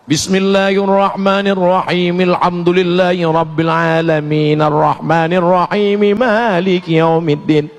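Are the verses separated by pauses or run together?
run together. The verses run together without pauses.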